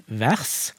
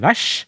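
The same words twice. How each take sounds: First: "vers" with separate r and s sounds; non-retroflex pronunciation. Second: "vers" ending in one sh sound, like "vesj"; retroflex pronunciation. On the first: Linguist shows her own dialect, "vers" with r and s apart. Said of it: "vers hos meg". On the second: Linguist shows how others talk, "vers" said as "vesj". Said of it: "Den lyden som da blir laget". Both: Shown as a demonstration.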